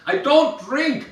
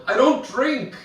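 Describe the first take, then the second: First: High, slow, drawn-out mock yell; repeating over music. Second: High-pitched mock call over music; raised voice. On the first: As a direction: spell it out for someone who can't hear. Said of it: "is always way too loud". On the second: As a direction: make yourself heard in a bar.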